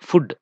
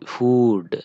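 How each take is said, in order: First: The vowel is short, like in 'look'. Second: The vowel is long, an 'oo' sound. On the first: The speaker calls it wrong. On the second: The speaker calls it right. "ఇది మాత్రము ఊ అని పలకాలి"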